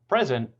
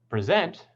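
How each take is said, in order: First: The stress is on the first syllable. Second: The stress is on the second syllable. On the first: It means a gift. "with primary stress on the first syllable" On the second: It means to give a talk. "on the second syllable"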